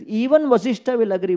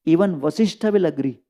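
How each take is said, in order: First: A hint of the sage insisting on Even; sage's confident retort. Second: Said in the usual way. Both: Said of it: "He says".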